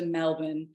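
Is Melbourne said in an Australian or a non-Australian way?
Australian. It is said with the Australian pronunciation. The speaker calls it right. "I did adopt the Melbourne"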